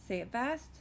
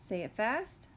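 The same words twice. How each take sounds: The two takes are said the same way.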